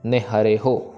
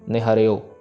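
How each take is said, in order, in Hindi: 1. अंतिम अक्षर की शुरुआत h की ध्वनि से होती है। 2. अंतिम अक्षर अकेला o स्वर है। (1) "ये अक्षर पे भी ध्यान देना" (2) "हो लगा हुआ है उसको ओ में कन्वर्ट कर देते हैं"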